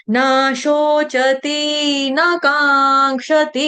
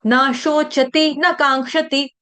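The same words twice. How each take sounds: First: "न शोचति न कांक्षति" sung very slowly, each ति held as a long tee; wrong lengthened vowels. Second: "न शोचति न कांक्षति" chanted measured, each ति stopped short; short vowels kept short. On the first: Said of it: "ऐसे नहीं गाना है". ("न शोचति न कांक्षति" गलत ढंग से लंबी मात्राओं में गाना) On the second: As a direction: chant "न शोचति न कांक्षति" without stretching the endings. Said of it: "लंबा नहीं करेंगे". ("न शोचति न कांक्षति" लंबा किए बिना, छोटी मात्रा में) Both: Shown as a demonstration.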